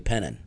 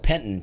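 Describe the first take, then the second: First: The 't' in the middle is dropped. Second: The 't' in the middle is pronounced. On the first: This is how locals say it. "but they say Pennon" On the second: This follows the spelling. "is spelled Penton"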